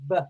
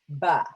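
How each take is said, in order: First: The consonant is clipped with no vowel after. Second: The consonant is followed by a vowel sound. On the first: The speaker calls it right. "Try to say it like this" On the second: The speaker calls it wrong. "Versus ba"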